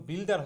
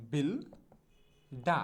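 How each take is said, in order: First: Said in the usual way. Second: বিলডা split slowly into "bil... daa", no final r; slow model pronunciation. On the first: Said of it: "মোটেও বিল্ডার হবে না". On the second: Shown as a demonstration. Teacher modelling builder for learners, slow বিলডা without r. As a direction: stretch বিলডা syllable by syllable, open আ ending. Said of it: "উচ্চারণটা হবে হচ্ছে".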